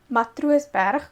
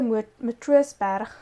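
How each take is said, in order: First: The name is said with an Afrikaans accent. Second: The name is said with an English accent. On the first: The speaker calls it right. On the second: The speaker calls it wrong.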